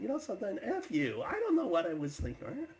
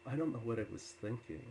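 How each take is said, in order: First: Loud, high-pitched angry retort; acted indignant yelling; upset. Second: Understated, sober self-reproach; retold regret, near the usual pitch; mildly sorrowful apology. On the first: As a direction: fire back, shouting in offence. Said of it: "he started getting upset with me". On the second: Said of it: "there was so much sorrow in him".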